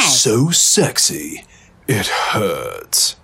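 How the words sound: It is said with strong conviction.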